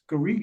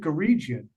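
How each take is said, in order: First: The G sounds are hard. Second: The G sounds are soft. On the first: The speaker calls it right. "it's hard G's" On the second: The speaker calls it wrong. "I always pronounce it Garigian"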